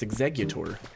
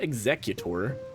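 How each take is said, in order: First: The middle has hard g sounds, like 'egg-gu'. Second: The middle sounds like 'cute', as in executor. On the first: The speaker calls it right. "It's two G's, it's Executor" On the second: The speaker calls it wrong. "I've always pronounced it like that, but that's not correct. It's not Executor"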